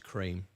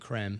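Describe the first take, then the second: First: It is said like the English word cream. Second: It is said like the French word crème. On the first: The speaker calls it right. "but it's not. It's cream" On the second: The speaker calls it wrong. "It makes it French. so I keep saying creme"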